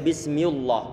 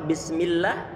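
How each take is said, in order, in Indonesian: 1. Lam pada Allah dibaca tebal dan berat. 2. Lam pada Allah dibaca tipis dan ringan. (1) "enggak boleh bismillah" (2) "maka dia tipis"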